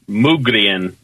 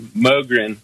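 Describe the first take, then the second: First: It is said the Swedish way. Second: It is said the American way.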